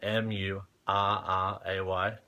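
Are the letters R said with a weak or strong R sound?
weak. The letter R is said without a strong R sound. "people won't understand me"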